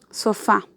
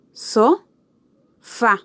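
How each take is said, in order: First: Said in the usual way. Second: SO rising, long pause, then FA; sofá split into syllables. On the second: Shown as a demonstration. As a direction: say so and fa separately. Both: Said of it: "estas dos sílabas".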